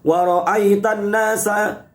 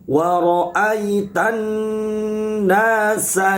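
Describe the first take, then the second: First: The doubled n has no long nasal hum. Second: The doubled n has a long nasal hum. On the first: The speaker calls it wrong. "Kadang dibaca begini" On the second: The speaker calls it right. "dibaca dengung yang lama"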